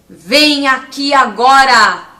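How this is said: It is said like an arrogant king.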